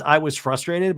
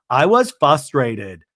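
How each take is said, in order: First: Said in the usual way. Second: Slow, louder "I was frustrated" with a heavy fall on "was"; Lisa's tick. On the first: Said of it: "so the line is". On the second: Retold or imitated. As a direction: lean on "was" in "I was frustrated" and drag it out. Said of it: "little Lisa tick".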